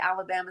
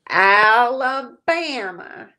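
First: It is said in a plain, everyday accent. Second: It is said in a drawn-out Southern accent. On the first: The speaker calls it wrong. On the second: The speaker calls it right.

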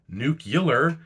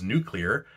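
First: The word has an extra vowel before 'lar'. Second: The word has no extra vowel before 'lar'. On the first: "nuclear is just easier to say" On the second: "that transition from the oo to the kla is awkward"

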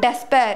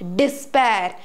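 First: The first syllable sounds like 'des'. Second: The first syllable sounds like 'dis'. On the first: The speaker calls it wrong. "It's not des" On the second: The speaker calls it right. "It is dis"

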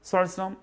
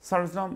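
No difference in how they are said.

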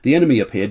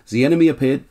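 First: It is read in an English accent. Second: It is read in a German accent. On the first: The speaker sounds like an English narrator. The speaker calls it right. "This is an English account" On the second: The speaker sounds like a German narrator. The speaker calls it wrong. "what am I doing a German accent for?"

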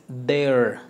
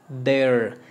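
Both takes have the same delivery.

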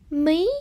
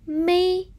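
First: The word is said with a rising tone. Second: The word is said with a level tone.

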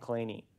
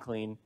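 First: The name is said as two syllables. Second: The name is said as one syllable. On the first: This is how the man himself said the name. "He pronounces his name Claney" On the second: This is how his father said the name. "His father pronounced his name Clean"

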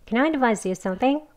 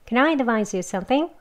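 No difference in how they are said.

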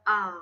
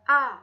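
First: The pitch stays low. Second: It is short and light. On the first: "เสียงที่3 เทียบเท่ากับเสียงเอก" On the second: "เสียงเบาค่ะ"

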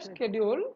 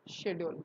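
First: It is said with an American pronunciation. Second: It is said with a British pronunciation. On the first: "So American le schedule" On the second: "In British le schedule"

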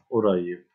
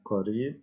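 First: It is said with Egyptian Arabic pronunciation. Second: It is said with formal Arabic pronunciation. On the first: "Y en árabe egipcio" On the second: "árabe formal"

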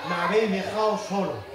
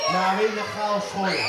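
The two takes are said the same way.

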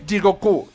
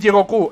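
First: No clear stress, with a slight catch inside. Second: The stress falls on the last syllable. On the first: The speaker calls it right. "como parándote un poco, como pausándote un poquito" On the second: The speaker calls it wrong. "ni aguda"

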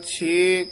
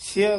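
First: The vowel is a long e. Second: The vowel is a short i. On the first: The speaker calls it wrong. "ਛੇ ਘਰ, ਛੇ ਗੁਰ, ਛੇ ਉਪਦੇਸ਼ ਨਹੀਂ ਕਹਿਣਾ" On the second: The speaker calls it right. "ਛੱਛੇ ਸਿਹਾਰੀ ਐੜਾ ਮੁਕਤਾ ਹੈ"

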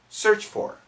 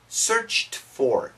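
First: The t sound at the end of 'searched' is dropped. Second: The t sound at the end of 'searched' is clearly heard. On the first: "But when we say it fast, search for" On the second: "So perfect pronunciation, searched for, searched. It's going to be a t sound"

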